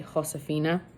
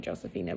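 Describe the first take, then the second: First: The name begins with an H sound. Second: The name begins with a J sound. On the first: The speaker calls it right. "the J is pronounced like a H, but it should be Josefina" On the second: The speaker calls it wrong. "I just say Josefina"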